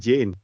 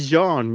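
First: The name is said with an 'ay' vowel, as Jane. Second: The name is said the French way, as Jean. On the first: This is how others pronounce the name. The speaker calls it wrong. "But they pronounce it Jane" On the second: This is how the name is meant to be said. The speaker calls it right. "It's supposed to be Jean"

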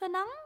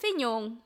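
First: The name has an anglicized, mangled pronunciation. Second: The name has a native Vietnamese pronunciation. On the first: A non-native speaker attempts the name. The speaker calls it wrong. "she'd try to pronounce it, or he'd try to pronounce it, bless their heart" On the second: This is the name's actual pronunciation. The speaker calls it right. "it's [name]"

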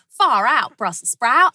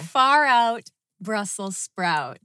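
First: It is said with a strong Australian accent. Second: It is said without a strong Australian accent.

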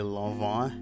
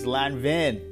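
First: The name is pronounced in a French way. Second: The name is pronounced in an English way. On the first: The speaker calls it wrong. "that shit sound goofy as hell" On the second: The speaker calls it right. "That's how you pronounce it"

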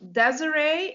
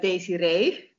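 First: The name is said with an English pronunciation. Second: The name is said with a Dutch pronunciation. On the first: "you pronounce it Desiree in English" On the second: "here we say Desiree"

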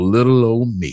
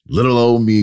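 First: It is said in an exaggerated Southern accent. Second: It is said in his normal speaking voice.

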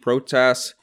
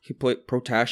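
First: The name ends with an s sound. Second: The name ends with an sh sound. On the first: The speaker calls it wrong. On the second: The speaker calls it right.

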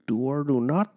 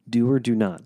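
First: It is said in a Yoda impression. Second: It is said in his normal voice.

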